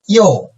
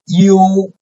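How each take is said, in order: First: The pitch falls sharply from high to low. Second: The pitch stays high and level.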